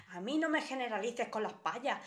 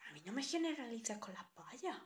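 First: Said in the usual way. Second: Soft, muttered to herself; quiet echo of her own complaint; softer repeat. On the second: Acted. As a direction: repeat it under your breath. Repeats her line again, much softer.

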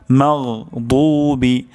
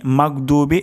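First: Slow মাগদুবি with throaty gh and thick d; correct heavy daad. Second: Quick মাগদুবি with hard g and plain d; mispronounced 'mag-dubi' for মাগদুবি; wrong hard g. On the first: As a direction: stretch the heavy 'doo' in মাগদুবি. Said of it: "দদ এখানে মোটা হবে". (টেনে, মোটা দদে মাগদুবি) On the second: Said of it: "এটি অশুদ্ধ". (অশুদ্ধ শক্ত গ দিয়ে মাগদুবি) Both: Shown as a demonstration.

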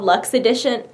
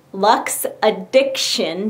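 First: Said in the usual way. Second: "Lux Addiction" said slowly, each word set apart; careful pronunciation. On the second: Real, not acted. Correcting the company name for viewers, "Lux Addiction" slow and careful. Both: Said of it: "Jeez, talking is hard".

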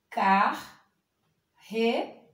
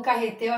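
First: "Carretel" very slowly as car, re, tel; long pauses inside "Carretel"; syllable by syllable. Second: Said in the usual way. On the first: Shown as a demonstration. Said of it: "o carretel vai ficar". ("Carretel" bem devagar, separado em sílabas) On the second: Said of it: "quando vai separar a sílaba".

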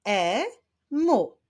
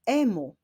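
First: "E-mu" split as e, pause, mu, pitched higher; syllable by syllable. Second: Said in the usual way. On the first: Shown as a demonstration. Teacher clapping syllables with pupils, "E-mu" said syllable by syllable. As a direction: sound out "E-mu" in two beats. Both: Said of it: "Wyklaszczmy sylaby w tym wyrazie".

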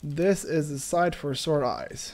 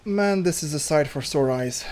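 First: Mock tearful. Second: Said in the usual way. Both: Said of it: "I'm gonna cry".

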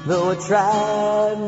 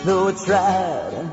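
Both takes have the same delivery.

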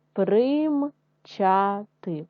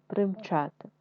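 First: Примчати drawn out slowly in syllables; slow syllable reading. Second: Said in the usual way. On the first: Shown as a demonstration. Teacher sounding out примчати for first graders, slow. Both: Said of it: "читаємо з вами слова".

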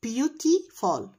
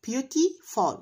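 First: Syllable by syllable, very slow; sounding out words. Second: Said in the usual way. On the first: Shown as a demonstration. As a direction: stretch every syllable apart. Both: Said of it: "Syllables يعني مقاطع صوتية".

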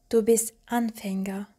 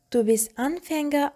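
First: Said in the usual way. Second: Anfänger lifted higher, the sentence left open; rising continuation. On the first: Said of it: "Du bist Anfänger, aber du lernst schnell". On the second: Shown as a demonstration. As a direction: let Anfänger rise as if more follows. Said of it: "aber du lernst schnell".

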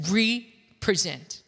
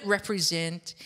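First: "represent" said slowly as REE, then pre-ZENT; hyphenated re-present. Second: Said in the usual way. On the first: Shown as a demonstration. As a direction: split "represent" after RE, with a long ee. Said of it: "adding a hyphen after the letters R E". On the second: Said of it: "The word represent is pronounced".

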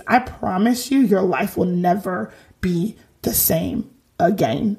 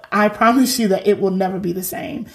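First: Put-on [name] accent. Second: Said in the usual way. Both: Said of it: "that was my [name] accent".

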